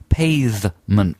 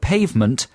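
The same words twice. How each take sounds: First: The first syllable has a posh-sounding vowel. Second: The word is pronounced in an ordinary way.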